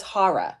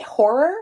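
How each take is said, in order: First: "horror" said as "HAH-ruh"; East Coast horror. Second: "Horror" as a questioning "HOR-er"; rounded "or" in "Horror", rising as a question; own pronunciation of horror. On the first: Teacher showing how everyone there says it, "HAH-ruh" pronunciation. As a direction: open "ah" in "horror", no firm final r. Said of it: "Everyone on the East Coast says". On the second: Teacher checking with a student, questioning "HOR-er" pronunciation. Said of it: "am I saying it right?". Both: Shown as a demonstration.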